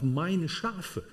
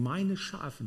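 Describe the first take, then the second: First: „meine“ leaned on, „Schafe“ falling away; stress on meine Schafe. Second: „meine“ stressed, softer, „Schafe“ trailing. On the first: Preacher stressing „meine Schafe“ to the congregation, meine hit. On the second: Preacher repeating „meine Schafe“ quietly, stressing meine. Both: Shown as a demonstration. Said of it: "Die Betonung liegt auf".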